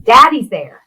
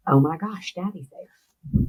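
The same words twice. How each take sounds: First: Higher, loud burst of amazement, retold; amazed exclamation. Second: Soft, slowing, stunned retelling; hushed realization. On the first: Daughter voicing father seeing his daddy, loud amazed exclamation. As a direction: burst out with it, imitating his joy. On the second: Retold or imitated. Daughter voicing father seeing his daddy, hushed realization. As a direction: let it sink in quietly and slowly.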